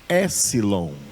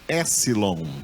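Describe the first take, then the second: The two takes are said the same way.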